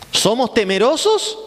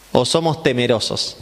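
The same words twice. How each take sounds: First: First of two meanings of "temerosos", stressed high and slow; rising question. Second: "somos" stressed, the line pitched lower and falling; second meaning of "temerosos", said low and falling; low falling question. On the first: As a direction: ask "¿Somos temerosos" slowly, lifting hard on "temerosos". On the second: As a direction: drop the voice low, leaning on "somos" not "temerosos". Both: Shown as a demonstration. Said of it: "Hay dos cosas de ser temeroso".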